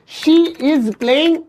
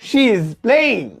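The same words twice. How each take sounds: First: The words 'she is' are said separately. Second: The words 'she is' are joined as 'she's'. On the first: The speaker calls it wrong. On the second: The speaker calls it right.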